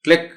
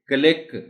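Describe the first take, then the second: First: The c and l blend into one sound. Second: The c and l are pulled apart. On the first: The speaker calls it right. "सी एल जो शुरू में है उसको जल्दी जल्दी बोलना है" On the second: The speaker calls it wrong. "this will be wrong"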